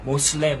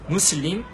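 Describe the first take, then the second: First: It is said with English vowels, like 'moslem'. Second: It is said with Arabic vowels, like 'muslim'. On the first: The speaker calls it wrong. "영어권 사람들이 미국에서 어, 뭐 모슬렘, 모슬렘 이렇게 쉽게 자기들 영어 발음대로 한 거예요" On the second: The speaker calls it right. "아랍어 무슬림"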